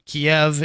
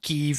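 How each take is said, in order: First: The name is said in its Russian-style form. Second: The name is said in its Ukrainian-style form. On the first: This is the Russian form of the name. "Kiev is Russian" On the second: This is the Ukrainian form of the name. "Kyiv is Ukrainian"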